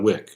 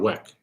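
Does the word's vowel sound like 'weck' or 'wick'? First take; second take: wick; weck. First: The vowel sounds like the one in 'wick'. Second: The vowel sounds like the one in 'wreck'. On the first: The speaker calls it wrong. "It's not beef on a wick" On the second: The speaker calls it right. "It's on a weck"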